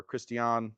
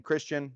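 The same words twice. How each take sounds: First: Christian pronounced Kris-tee-AHN; foreign-style pronunciation. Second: Said in the usual way. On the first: Shown as a demonstration. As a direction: say Christian in three syllables, ending on AHN. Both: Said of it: "what accent I should be putting on Christian".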